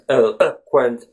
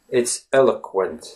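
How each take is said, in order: First: The vowel after 'el' is a full O. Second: The vowel after 'el' is a short schwa. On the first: The speaker calls it wrong. "But you don't obviously say eloquent" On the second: The speaker calls it right. "The letter O in that word is the schwa sound"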